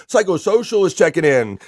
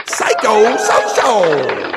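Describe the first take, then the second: First: Said in the usual way. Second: Drawn-out announcer call. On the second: Acted. Host welcoming a chatter by name, announcer call. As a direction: stretch the name very slow, louder and higher.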